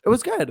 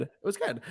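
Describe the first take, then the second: First: It was good lifted high and bright; upbeat. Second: Flat and quiet. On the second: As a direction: drop It was good quietly. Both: Shown as a demonstration. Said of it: "said twice differently".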